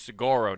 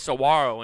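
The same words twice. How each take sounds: First: The middle consonant is a hard G sound. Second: The middle consonant is a W sound. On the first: This is how it is said on the east side. "You go to the east" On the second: This is how it is said on the west side. "in the west. You get rid of those G's and put those dubs in"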